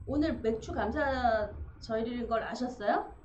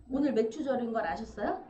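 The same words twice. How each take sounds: First: Loud, playful question with a rise; teasing question. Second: Loud teasing repeat with a rise; louder repeat. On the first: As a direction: tease her warmly in front of everyone. Asks deacon in front of church. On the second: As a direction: press the question on her a second time. Repeats question louder to deacon. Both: Real, not acted.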